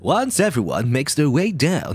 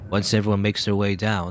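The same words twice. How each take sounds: First: It is said in a cheerful Mamoru voice. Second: It is said in a plain voice.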